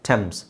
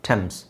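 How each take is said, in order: The two takes are said the same way.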